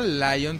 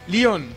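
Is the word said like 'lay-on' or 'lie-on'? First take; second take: lie-on; lay-on. First: The first vowel sounds like 'lie', English style. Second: The first vowel sounds like 'leh', Spanish style. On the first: This is the expected English name. The speaker calls it right. "No será Lion" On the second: Someone else mispronounced it this way. The speaker calls it wrong. "así se pronuncia, Leon"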